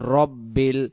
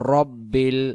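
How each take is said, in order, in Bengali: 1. প্রথম স্বরধ্বনিটি হ্রস্ব 'a'। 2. প্রথম স্বরধ্বনিটি হ্রস্ব 'a'।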